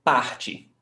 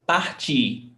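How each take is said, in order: First: Parte stressed on the first syllable, "PAR"; stress before last. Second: Partir with stress on the final "tir"; stress on last syllable. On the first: Teacher showing the changed stressed syllable, first-syllable stress. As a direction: hit the start of parte, let the ending drop. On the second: Teacher contrasting infinitive with present tense, final stress. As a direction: make the second syllable of partir the strong one. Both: Shown as a demonstration. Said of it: "the stressed syllable".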